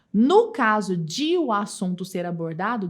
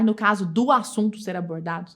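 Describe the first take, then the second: First: "de o" slowly, apart; stress on de o. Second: "do" marked as the wrong contraction; stress on do. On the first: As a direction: say "de o" separately and slowly. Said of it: "as devidas correções". ("de o" lento e separado) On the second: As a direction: point out "do" as the error. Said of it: "Em vez de falar". ("do" destacado como erro) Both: Shown as a demonstration.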